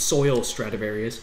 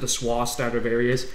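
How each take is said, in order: First: The first word sounds like 'soil', with an L. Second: The first word sounds like 'swa', without an L. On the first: This is how it is written in the game text. "in text, it's Soil Stradivarius" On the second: This is how a character in the game says it. "she pronounces it the Swa Stradivarius"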